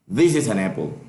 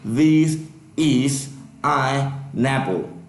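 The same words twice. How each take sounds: First: The words run together with linked sounds. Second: Each word is said separately without linking. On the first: The speaker calls it right. "it's easier" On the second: The speaker calls it wrong. "I'm not going to say"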